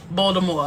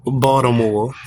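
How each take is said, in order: First: Baltimore repeated as bah-duh-more; imitating the pronunciation. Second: Baltimore as bah-tuh-more, t flapped and r dropped; local Baltimore pronunciation. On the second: Real, not acted. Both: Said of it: "that's a new pronunciation".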